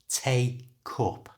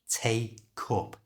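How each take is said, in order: The two takes are said the same way.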